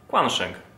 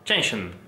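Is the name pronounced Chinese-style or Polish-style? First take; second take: Polish-style; Chinese-style. First: The name is read with Polish pronunciation. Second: The name is attempted with Chinese pronunciation. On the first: "mówmy na niego Quansheng" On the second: "po chińsku powinno to być coś w rodzaju Chenshin"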